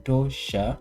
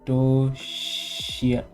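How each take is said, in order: First: The word ends with a 'sha' sound. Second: The word ends with a 'shia' sound. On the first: The speaker calls it right. "It will be Tosha" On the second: The speaker calls it wrong. "Oh no, not Toshia"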